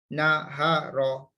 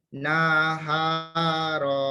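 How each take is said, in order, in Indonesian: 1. Vokalnya dibaca pendek. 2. Vokalnya dibaca panjang. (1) "Sebenarnya pendek-pendek ni" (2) "Ada murid saya baca. Salah sebutan dia"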